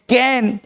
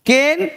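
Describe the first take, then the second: First: कैन slowly with a wide "ae"; open "ae" vowel. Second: केन slowly with a held "ay"; long "ay" vowel. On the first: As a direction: say कैन as "can". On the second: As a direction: say केन as "kayn". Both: Shown as a demonstration. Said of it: "वहाँ ए और यहाँ ए".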